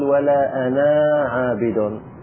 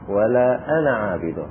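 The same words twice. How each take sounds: First: The vowel at the end of ana is lengthened. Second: The vowel at the end of ana is short. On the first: The speaker calls it wrong. "لا نقول" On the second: The speaker calls it right. "في وصل الكلام لا نأتي بألف"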